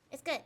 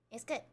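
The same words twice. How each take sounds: First: Louder, firm; emphatic. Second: Said in the usual way. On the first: Real, not acted. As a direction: say it with conviction. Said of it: "repeats phrase louder then softer". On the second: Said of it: "repeats phrase softer, rising".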